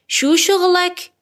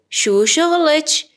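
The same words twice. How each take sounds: First: شغلک ending in a clear -ek; slow, high شغلک with a final k; masculine ending. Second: شغلچ ending in a -ech sound; slow, higher شغلچ with a final ch; feminine ending. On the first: Teacher asks a man's job, شغلک slow with final k. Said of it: "کارت چیه". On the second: Teacher asks a woman's job, شغلچ slow with final ch. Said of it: "کافیه کلمه رو به اضافهٔ چه کنید". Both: Shown as a demonstration.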